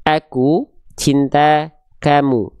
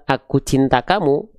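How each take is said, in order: First: "Aku cinta kamu" slowly, every A thin with a smile; thin tajwid reading. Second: Said in the usual way. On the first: Shown as a demonstration. Teacher shows the phrase read with Quranic thin A. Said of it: "tipiskan pelafalannya". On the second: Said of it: "kalau di Indonesia kan biasa".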